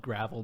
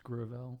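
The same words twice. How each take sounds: First: "gravel" stressed on the first syllable, GRAV-ul; spelling pronunciation. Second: "Gravel" stressed on the second syllable, gruh-VELL; correct name pronunciation. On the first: Host showing the spelling, "gravel" said as GRAV-ul. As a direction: say "gravel" like the small stones. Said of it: "it is spelled gravel". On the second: Host correcting co-hosts, "Gravel" said as gruh-VELL. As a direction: slowly say "Gravel" to rhyme with "compel". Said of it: "but it's pronounced Gravel". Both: Shown as a demonstration.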